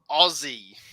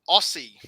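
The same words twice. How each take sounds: First: The middle consonant is a buzzing Z sound. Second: The middle consonant is a hissing S sound. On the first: The speaker calls it right. "the S turns into a Z" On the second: The speaker calls it wrong. "notice it's not Aussie"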